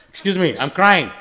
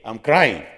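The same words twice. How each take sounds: First: "crying" said louder with a laugh, mocking; mock show-off crier, laughing. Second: "crying" dropped lower, a bit louder, showing off; mock show-off crier. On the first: Preacher mocking a showy worshipper, laughing and loud. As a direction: ham up the showy crier with a chuckle. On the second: Preacher mocking a showy worshipper, mildly louder. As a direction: imitate a man announcing his tears. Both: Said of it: "He wants to tell you".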